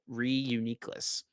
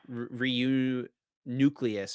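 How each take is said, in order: First: The ending sounds like niclus, one syllable shorter. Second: The ending sounds like the word nucleus. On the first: The speaker calls it right. "but Reuniclus" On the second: The speaker calls it wrong. "That's how I thought it was at first"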